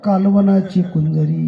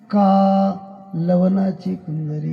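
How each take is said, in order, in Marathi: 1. पहिला अक्षर थेट पुढच्या अक्षरात जातो. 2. पहिला अक्षर ताणला जातो, वेगळा ठेवला जातो. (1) "शब्द लांबवलाच नाही तर" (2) "का शब्द लांबवायचा बरं का"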